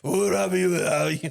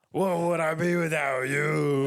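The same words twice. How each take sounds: First: Loud raspy rapper croon; [name] impression done the right way, loud. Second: [name] crooning, sounding like Cookie Monster; [name] impression. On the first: Shown as a demonstration. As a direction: belt it like [name]. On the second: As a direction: growl it out like [name], slow. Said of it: "Sound like Cookie Monster".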